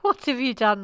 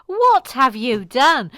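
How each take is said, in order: First: Restrained dismayed question; mock reproach. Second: Loud, slow, drawn-out dismay; mock-horrified reproach. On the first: Host blaming Mike, mild mock reproach. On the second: Host blaming Mike, slow loud mock horror. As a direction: hammer each word out loudly. Louder, slower repeat.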